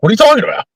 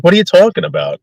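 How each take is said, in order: First: Very high, stunned "What are you talking about?"; host to scared guests, mock incredulity; incredulous. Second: High, baffled "What are you talking about?"; host to guests, lighter disbelief; milder incredulous. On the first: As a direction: squeak it in disbelief. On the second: Retold or imitated. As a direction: repeat it a little calmer. Repeat to scared guests.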